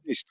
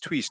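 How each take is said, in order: First: Said in the usual way. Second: "Twist" with a crisp, aspirated posh T. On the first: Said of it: "It sounds like a very posh person saying twist". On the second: Retold or imitated. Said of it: "a very posh person saying twist".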